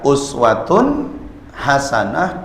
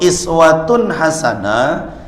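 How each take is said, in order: First: The first word starts with an 'u' vowel. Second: The first word starts with an 'i' vowel. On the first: It refers to the great examples set by the Prophet. "Kalau dibaca uswatun hasanah" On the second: It refers to the small everyday examples set by the Prophet. "Kalau iswatun hasanah"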